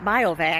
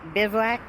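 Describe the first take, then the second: First: The word begins with a 'bio' sound. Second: The word begins with a 'biv' sound. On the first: The speaker calls it wrong. "it's not biovac" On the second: The speaker calls it right. "it's bivouac"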